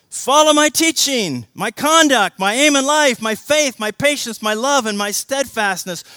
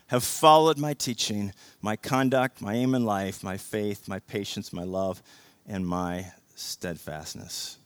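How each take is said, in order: First: Loud and high, each item hammered; preached at full force. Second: Said in the usual way. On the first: Shown as a demonstration. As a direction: drive every my home. Same verse re-read, now preached.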